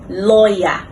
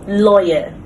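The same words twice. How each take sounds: First: The ending is an open ah vowel. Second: The ending is a short weak vowel. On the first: The speaker calls it wrong. "commonly mispronounced" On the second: The speaker calls it right. "correct pronunciation"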